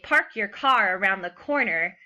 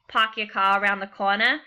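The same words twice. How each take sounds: First: It is said in a Western American accent. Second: It is said in a Boston accent.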